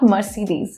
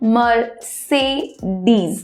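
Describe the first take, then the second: First: The middle syllable sounds like 'see'. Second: The middle syllable sounds like 'say'. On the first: The speaker calls it wrong. "লোকে করছে মার্সিডিজ, but it's not Mercedes" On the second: The speaker calls it right. "it's Mercedes ... M E R S A Y, say"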